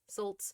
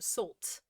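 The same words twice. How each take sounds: First: It is said with a German accent. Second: It is said with a British accent. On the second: "and that became a British accent"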